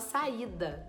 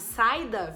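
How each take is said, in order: First: The a and i fall in separate syllables. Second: The a and i glide together in one syllable. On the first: The speaker calls it right. "bem separado" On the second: The speaker calls it wrong. "ficaria juntinho. Teria o ditongo"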